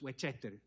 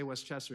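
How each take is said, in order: First: The name is said in a Cuban-accented way. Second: The name is said in a standard English way. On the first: "it's Westchester, because Cubans don't pronounce the words correctly sometimes" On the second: "We don't say Westchester"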